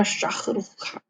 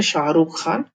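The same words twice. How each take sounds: First: शाहरुख खान with a harsh kh in place of ह, as शाखरुख; Russian-style शाहरुख खान with a rasping kh; Russian pronunciation. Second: Said in the usual way. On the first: Shown as a demonstration. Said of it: "पर Russian में". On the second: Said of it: "ये हिंदी में पढ़ते हैं".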